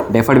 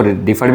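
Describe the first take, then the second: First: "डिफर्ड" with an e in the first syllable, like "deh-furd"; variant pronunciation. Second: "डिफर्ड" with a short i in the first syllable, like "diff-urd"; alternative pronunciation. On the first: Teacher showing students one way of saying the term, "डिफर्ड" as "deh-furd". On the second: Teacher showing students how some say the term, "डिफर्ड" as "diff-urd". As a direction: say "डिफर्ड" opening on "dih". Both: Shown as a demonstration. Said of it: "कुछ इसको डिफर्ड भी बोलते हैं".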